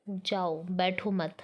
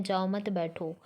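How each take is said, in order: First: "जाओ" set apart, then "बैठो मत" together; pause after जाओ. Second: "जाओ मत" run straight into "बैठो"; no comma pause. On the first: Teacher explains the sentence with a comma, pausing after "जाओ". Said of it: "पहले sentence का अर्थ ये है". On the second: Teacher reads the sentence without a comma, words joined. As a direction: say "जाओ मत बैठो" with no break after "जाओ". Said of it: "comma के बिना है". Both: Shown as a demonstration.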